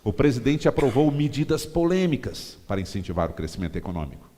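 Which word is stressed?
medidas polêmicas. The words "medidas polêmicas" are stressed. It appeals to opponents of the president. "você dá ênfase nas medidas polêmicas"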